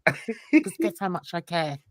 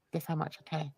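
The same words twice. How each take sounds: First: Said in the usual way. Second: Much softer, lower dismissive question; dismissive aside. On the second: Real, not acted. Telling critic how little they matter, quiet dismissive aside. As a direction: drop it almost under the breath.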